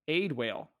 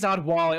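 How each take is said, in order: First: The name begins with an 'aid' sound. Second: The name begins with an 'odd' sound. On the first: The speaker calls it wrong. "It's not how you say it, but that's how you spell it" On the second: The speaker calls it right. "oh, it is Oddwally"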